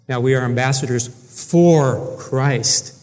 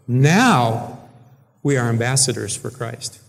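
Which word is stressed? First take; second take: ambassadors; now. First: The stress is on "ambassadors". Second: The stress is on "now".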